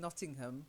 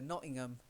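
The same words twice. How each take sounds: First: The H sound is pronounced. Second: The H sound is left out. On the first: "you wouldn't go to" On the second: "because they drop the H"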